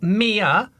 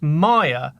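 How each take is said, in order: First: The first vowel sounds like 'ee'. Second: The first vowel sounds like 'eye'. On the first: The speaker calls it wrong. "not Mia, as in Mia Farrow" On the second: The speaker calls it right. "is actually pronounced Maya, as in the department store"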